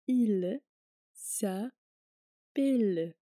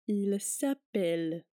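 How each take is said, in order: First: The phrase is said slowly. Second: The phrase is said at normal speed.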